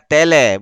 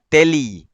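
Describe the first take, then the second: First: The second vowel sounds like 'eh'. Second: The second vowel sounds like 'ee'. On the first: The speaker calls it right. "sebutan yang betul ialah tele" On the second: The speaker calls it wrong. "bukan teli"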